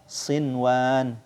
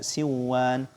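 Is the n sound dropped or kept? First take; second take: kept; dropped. First: The n sound is clearly kept. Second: The n sound is dropped into the w. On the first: The speaker calls it right. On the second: The speaker calls it wrong.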